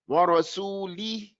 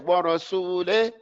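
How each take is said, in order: First: The final vowel is a clear, pure 'ee'. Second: The final vowel drifts toward an 'eh' sound. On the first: The speaker calls it right. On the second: The speaker calls it wrong.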